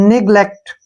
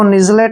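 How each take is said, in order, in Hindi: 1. बीच का व्यंजन कड़ा ग की ध्वनि है। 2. बीच का व्यंजन नरम ज की ध्वनि है। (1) "जी का उच्चारण यहाँ ग होगा" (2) "इसको निजलेट नहीं पढ़ना है हमने"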